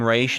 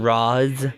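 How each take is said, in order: First: The name ends with an 'sh' sound. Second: The name ends with a 'z' sound. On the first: "I call him Raish" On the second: "not Roz"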